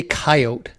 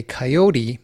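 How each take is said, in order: First: Coyote as KAI-oht, silent final e; two-syllable coyote. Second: Coyote as kai-OH-tee; three-syllable coyote. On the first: Host quotes the hunters and trappers' way, coyote as KAI-oht. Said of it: "So if you say coyote". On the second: Host quotes the preservationist way, coyote in three syllables. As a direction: sound the final e of coyote as "ee". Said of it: "if you say coyote". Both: Shown as a demonstration.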